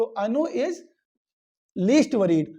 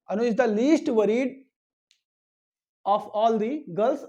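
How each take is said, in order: First: Said in the usual way. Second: Slow model sentence. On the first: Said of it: "the least नहीं होगा". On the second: Shown as a demonstration. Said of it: "तो the हो जाएगा".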